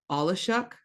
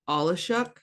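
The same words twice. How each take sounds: The two takes are said the same way.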